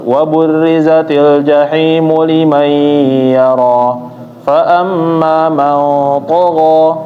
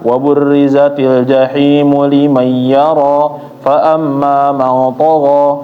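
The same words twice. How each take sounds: First: The sounds are held and the pace is unhurried. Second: The words are rushed together without holding the sounds. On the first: The speaker calls it right. "harus ditahan" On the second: The speaker calls it wrong. "Jangan ... keliru"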